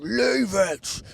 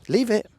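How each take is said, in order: First: It is shouted like a drill sergeant. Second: It is said calmly, not shouted.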